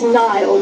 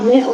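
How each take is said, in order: First: The name is said like 'Niall'. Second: The name is said like 'Neil'. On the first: The speaker calls it wrong. "he's often referred to as Niall McRae" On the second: The speaker calls it right. "the pronunciation should be Neil"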